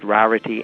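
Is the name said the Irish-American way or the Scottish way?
Scottish. The name is said with a Scottish pronunciation. This is how the name's owner says it. "but she pronounces it Rarity"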